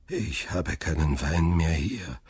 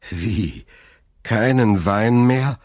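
First: Sighing. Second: Slow, louder, higher disbelieving question; appalled. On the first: Old father admits to his son, sighing. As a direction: sigh it out, drained. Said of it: "seufzte der Alte". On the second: Son learns the wine is gone, appalled. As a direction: drag it out in dismay. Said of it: "fragte Dantès entsetzt". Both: A narrator's reading.

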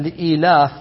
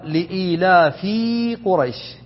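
First: "لإيلاف" as one word ending on f; li-iilaaf, the f joined to "لإيلاف"; corrected reading. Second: "لإيلاف قريش" split as li-iilaa, then a long fii Quraysh; layman's misreading. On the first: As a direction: close "لإيلاف" on its f, with no long ii after it. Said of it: "هذا غلط، بل لإيلاف". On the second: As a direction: break "لإيلاف" before its f, stretching it into a separate word fii. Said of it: "وبعض العوام يقرأها". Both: Shown as a demonstration.

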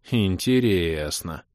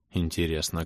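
First: «Интересно» stretched to double length; drawn out. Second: Said in the usual way. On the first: A narrator's reading. Son muses on his ex calling, drawn out. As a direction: draw out every syllable of «Интересно», slowly. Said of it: "протянул я на манер лысого эльфа".

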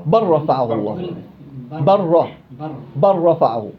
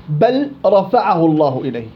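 First: بل رفعه said as barrafa'ahu, lam fully merged into ra. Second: بل رفعه with a clear lam before ra; lam pronounced. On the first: Teacher demonstrates the correct assimilation. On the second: Teacher asks which reading is right. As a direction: say بل رفعه keeping the lam distinct. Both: Shown as a demonstration. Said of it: "ولا بل رفعه الله إليه".

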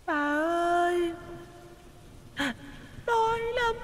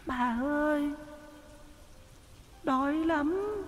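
First: Very high, much softer, slow drawn-out eerie plea; slower plaintive ghost child. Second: Put-on very high, much softer eerie child's voice; a hungry little ghost whimpering; plaintive ghost child. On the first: Ghost child repeating its plea, slower, very high and faint. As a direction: stretch the hungry whimper out. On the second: Ghost child begging the old woman for food, high and faint. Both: A narrator's reading. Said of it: "Nó cất tiếng nói thê thiết".

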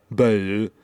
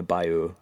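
First: Exaggerated French-style Bayou; mock French. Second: Said in the usual way. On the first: Shown as a demonstration. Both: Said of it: "French is just".

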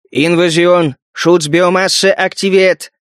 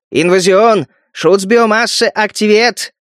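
First: Slow machine announcement; gloating robot alarm; metallic robot voice. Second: Slow, gloating machine voice; robot alarm with malice. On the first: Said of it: "Всё тот же металлический голос". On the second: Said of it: "говорил злорадно". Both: A narrator's reading.

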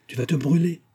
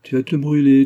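First: High-pitched, mild caution; worried warning. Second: Loud, higher-pitched mimicked warning; merry mockery. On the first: Old nurse warning girl about boiling tea, worried. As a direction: warn her with rising concern. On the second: Antonine mimicking her nurse's warning, merry mockery. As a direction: throw the warning back, teasingly. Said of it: "dit Antonine en riant". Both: A narrator's reading.

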